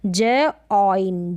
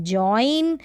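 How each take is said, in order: First: ज ऑइन in two slow pieces; sounded out. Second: जॉइन in one piece with "oy"; जॉइन as one gliding syllable; blended word. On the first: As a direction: pause between ज and ऑइन. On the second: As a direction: join the sounds into जॉइन. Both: Shown as a demonstration. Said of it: "ऑय करके pronunciation करते हैं".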